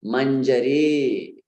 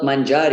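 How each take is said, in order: First: Mangiare as man-ja-REEE; short middle, long stressed last syllable on mangiare; correct long final vowel. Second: Mangiare as man-JAA-ri; man-JAA-ri for mangiare, short last vowel; mispronounced manjari. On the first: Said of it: "it is". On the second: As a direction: stress and prolong the middle of mangiare. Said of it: "it's not mangiare". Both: Shown as a demonstration.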